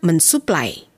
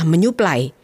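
First: The s is kept after an 'n' sound. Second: The s merges into a 'ny' sound. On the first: The speaker calls it wrong. "bukan mensuplai" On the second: The speaker calls it right. "yang benar adalah menyuplai"

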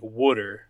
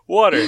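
First: It is said in a Philadelphia accent. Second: It is said in a general American accent. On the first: "in that area, they pronounce it like water. They have, like, there's like an extra O in there" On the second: "I just say it the way I say it"

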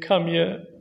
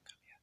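First: It sounds sad and tearful. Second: It is whispered secretively.

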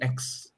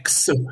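First: The letter is said in a standard accent. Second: The letter is said in a Chinese accent. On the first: "Orang Cina tuh nggak bisa ngomong X" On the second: "Jadi X gitu kan"

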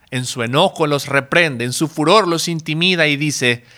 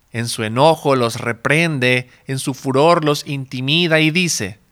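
No difference in how they are said.

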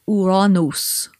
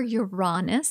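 First: An older, Greek-sounding pronunciation, like 'Ouranos'. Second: An English pronunciation that avoids saying 'anus'. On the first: "There's also an ancient way of pronouncing it" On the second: "I prefer Uranus. Because then I don't have to say anus"

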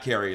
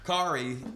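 First: The name rhymes with Mary. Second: The name rhymes with sorry. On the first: The speaker calls it wrong. "Not Carrie like Mary" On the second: The speaker calls it right. "it says Kari like sorry"

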